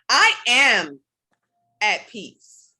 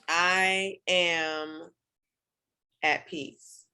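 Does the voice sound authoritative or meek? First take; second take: authoritative; meek. First: It is said firmly, with a commanding tone. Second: It is said softly, without any force. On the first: The speaker is staking a claim on it. The speaker calls it right. "now I'm commanding that energy" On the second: It is a plain statement. The speaker calls it wrong. "that has one vibration to it"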